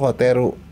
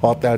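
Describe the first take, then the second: First: The word ends with an added ru syllable. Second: The word ends on the consonant l.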